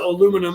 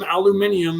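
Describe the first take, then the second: First: It is said with four syllables, American style. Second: It is said with five syllables, European style. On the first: "that's just the way that we say it in America" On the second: "if you're a European"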